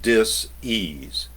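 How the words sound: The word is split, setting apart dis. It means a lack of ease. "I put that type of enunciation on it"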